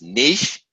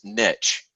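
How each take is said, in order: First: The word rhymes with sheesh. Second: The word rhymes with stitch. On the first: "the first one is niche, like sheesh" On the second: "my personal favorite is niche, kind of like stitch"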